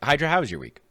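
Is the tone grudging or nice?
grudging. It is asked in a grudging tone.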